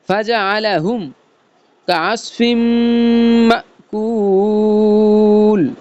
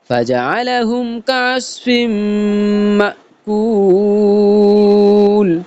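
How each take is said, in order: First: It is said in short chunks with breaks. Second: The whole line is said in one flow. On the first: "কাটা কাটা শুরু করব" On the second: "পুরো লাইনটা একত্রে আমরা পড়বো"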